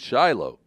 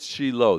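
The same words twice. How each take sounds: First: The name is said with an English pronunciation. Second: The name is said with a Hebrew pronunciation. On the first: "that must mean Shiloh" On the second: "That's the proper Hebrew pronunciation"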